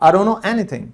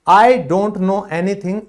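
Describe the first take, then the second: First: "I don't know" is run together as "arono". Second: "I don't know" is said in full.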